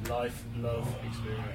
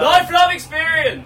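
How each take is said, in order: First: It is said at a normal, quiet volume. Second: It is said louder, projecting to listeners.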